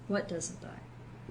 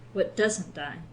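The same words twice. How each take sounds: First: The stress is on "what". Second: The stress is on "doesn't".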